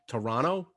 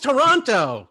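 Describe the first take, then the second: First: The second T is dropped. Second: The second T is clearly pronounced.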